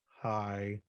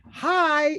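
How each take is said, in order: First: The greeting sounds flat and unenthusiastic. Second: The greeting sounds eager and bright. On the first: A teenager is indifferent to seeing a parent. "your fifteen year old seeing you at the end of the day" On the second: A young child is happy to see a parent. "Your five year old seeing you at the end of the day"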